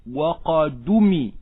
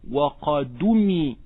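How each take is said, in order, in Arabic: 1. الهمزة تُحذف، وحركتها تنتقل إلى الدال. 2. الهمزة تُحذف، وحركتها تنتقل إلى الدال.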